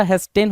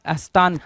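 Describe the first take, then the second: First: हेस्टेन said as hes-ten with a short 'en' ending; correct pronunciation. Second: हस्तान said with an open 'aan' ending, has-taan; wrong pronunciation. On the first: Teacher giving students the right हेस्टेन with a final short 'en'. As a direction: say हेस्टेन with 'e' vowels, not 'aan'. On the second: Teacher imitating the wrong हस्तान with a long 'aan'. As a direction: voice the misspelling as हस्तान, ending on 'taan'. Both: Shown as a demonstration. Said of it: "हस्तान नहीं होता".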